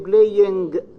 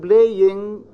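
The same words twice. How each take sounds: First: The word ends with a plain n sound. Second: The word ends with the velar ng sound. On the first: The speaker calls it wrong. "they say playing" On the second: The speaker calls it right. "instead of saying playing"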